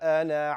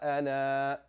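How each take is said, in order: First: The final vowel is short, running straight on. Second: The final vowel is long before a stop. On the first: The reciter continues without stopping. "If you continue the recitation, you are going to drop it" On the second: The reciter stops on this word. "When you stop on this, you pronounce it"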